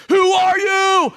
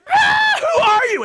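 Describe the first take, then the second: First: Loud, slow, drawn-out demand; emphatic shout. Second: Put-on shrieking high and loud like a frightened girl, with a laugh; hammed-up girlish shriek of fright; girly scream. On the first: Retold or imitated. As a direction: bellow the question slowly and hard. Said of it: "it's emphatic in the Hebrew". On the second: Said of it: "screamed like a girl".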